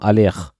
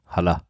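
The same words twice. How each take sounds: First: It is said with a French accent. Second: It is said with a German accent. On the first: The speaker calls it right. "mit französischem Akzent" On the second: The speaker calls it wrong. "ist mir wurscht"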